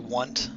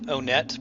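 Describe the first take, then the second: First: The name begins like the word 'one'. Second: The name begins with an 'oh' sound. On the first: This fits the numbered town names. The speaker calls it right. "I think it should be Want" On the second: This is how many other people say it. The speaker calls it wrong. "I know a lot of people who pronounce it Onet"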